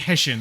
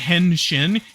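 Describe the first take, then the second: First: The n sound in the first syllable is dropped. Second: The first syllable ends with a clear n sound. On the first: The speaker calls it right. "You say heshin" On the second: The speaker calls it wrong. "You don't you don't say henshin"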